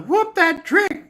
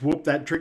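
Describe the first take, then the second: First: It is said in a thin, high voice. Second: It is said in a deep, bassy voice. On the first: The speaker calls it wrong. "not a" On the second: The speaker calls it right. "want to hear a deep voice"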